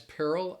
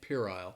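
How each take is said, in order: First: It is said with an American pronunciation. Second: It is said with a British pronunciation. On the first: "some Americans may pronounce it as Pearl" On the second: "in British English is kind of more so how I'm pronouncing it"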